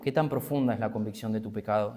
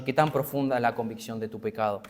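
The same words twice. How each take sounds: First: "tan" kept stressed, the whole question softer and lower; quieter repeat. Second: "tan" leaned on in a searching question; stress on tan. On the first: Preacher repeats his question to the congregation softly. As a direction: ask it again softly, leaning on "tan". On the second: Preacher asks the congregation, stressing "tan". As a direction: press the word "tan" as he asks. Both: Real, not acted. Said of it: "Y yo te pregunto".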